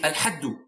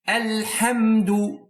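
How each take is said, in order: First: The m is left out completely. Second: The m is said plainly with closed lips. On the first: The speaker calls it wrong. "idgham, which is omission or a deletion" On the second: The speaker calls it right. "you just pronounce it naturally and normally"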